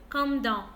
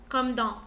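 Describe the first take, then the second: Both takes have the same delivery.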